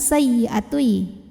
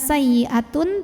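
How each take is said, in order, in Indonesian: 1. Akhirannya melebur menjadi bunyi y sengau. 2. Kata ini berakhir dengan bunyi n yang jelas. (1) "masuk ke ya. Disertai dengung" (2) "Bukan sayyi'atun"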